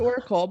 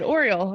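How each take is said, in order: First: The word sounds like 'oracle'. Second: The word sounds like 'oriole'. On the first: The speaker calls it right. "It's Oracle" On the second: The speaker calls it wrong. "I like that"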